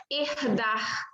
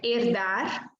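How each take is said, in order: First: "herdar" with both Rs as throaty h sounds; regional guttural R. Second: "herdar" with tongue-tip R closing both syllables; slow "herdar", both Rs lightly tapped; soft R. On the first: Teacher imitates a regional speaker from Rio or Northeast, guttural R. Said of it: "tendem a pronunciar". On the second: Teacher shows R at the end of a syllable, soft tapped R. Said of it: "chamado de R brando, nos seguintes casos". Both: Shown as a demonstration.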